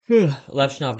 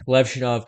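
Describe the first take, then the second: First: Levshunov said slowly and carefully, with a clear v; slow, careful Levshunov, LEV with a clean v; corrected name. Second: Levshunov said as Lepshunov, with p in place of v; slip on the name. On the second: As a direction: Levshunov slipping into Lepshunov, p not v. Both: Real, not acted. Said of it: "oh, excuse me".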